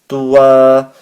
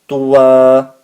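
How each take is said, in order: First: The word ends with a long a vowel. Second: The word ends with a long a vowel.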